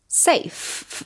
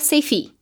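First: It ends with only a breathy f sound. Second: An extra vowel sound follows the final f. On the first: The speaker calls it right. "Só sopro" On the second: The speaker calls it wrong. "a gente não vai falar esse E. Então, a gente não fala safe"

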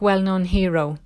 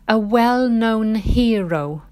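First: The words are run together quickly and reduced. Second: The words are said clearly and separately.

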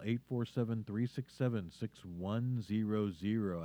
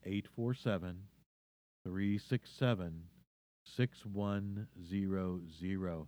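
First: The number is said very quickly. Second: The number is said more slowly.

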